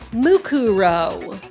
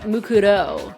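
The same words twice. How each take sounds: First: The R is a strong English-style R sound. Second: The R is a light Japanese-style tapped sound. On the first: The speaker calls it wrong. "in the English they're like Mukuro, but like you would never say R like that" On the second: The speaker calls it right. "It would be like Mukuro, like that"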